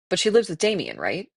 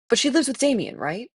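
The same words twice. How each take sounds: First: It is voiced in the asking character's voice. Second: It is voiced as another character's voice. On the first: The speaker calls it right. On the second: The speaker calls it wrong.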